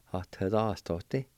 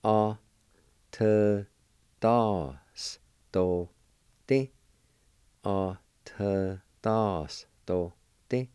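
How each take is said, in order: First: Said in the usual way. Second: A, T, Das, Do, Ti as slow, separate syllables. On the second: Shown as a demonstration. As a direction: pause after each of A, T, Das, Do, Ti. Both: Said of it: "It's pronounced like this".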